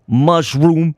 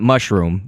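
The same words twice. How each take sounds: First: It is said in a stereotyped Italian-style accent. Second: It is said in a plain, normal accent.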